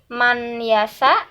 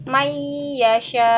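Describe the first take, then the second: First: A separate n sound is pronounced. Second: The n merges into the following y. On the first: The speaker calls it wrong. "bukan man yasa" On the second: The speaker calls it right. "tapi mayyasha seperti itu"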